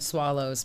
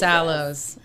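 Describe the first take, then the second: First: The name begins with an 'sw' sound. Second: The name begins with a plain 's' sound. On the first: The speaker calls it wrong. "it often is said swallows, but it's not" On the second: The speaker calls it right. "It's Sallows"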